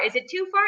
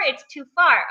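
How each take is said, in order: First: FAR lifted in a high, soft question; small high query ending upward on FAR; doubtful question. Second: FAR falling in a settled statement; matter-of-fact verdict with FAR going down; resigned answer. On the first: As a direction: ask yourself softly, rising on FAR. Retold inner debate, asking herself. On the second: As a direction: answer yourself, dropping on FAR. Answers her own retold question. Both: Retold or imitated.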